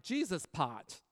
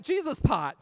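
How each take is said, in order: First: Said in the usual way. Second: "Jesus pot" called out high and loud; "Jesus pot" proclaimed louder and higher; excited exclamation. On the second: Retold or imitated. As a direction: shout "Jesus pot" with a rush of joy. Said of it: "So I literally, I was like".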